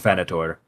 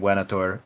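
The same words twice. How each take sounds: First: It is said with medieval Latin pronunciation. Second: It is said with classical Latin pronunciation. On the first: "in medieval pronunciation" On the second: "in classical pronunciation"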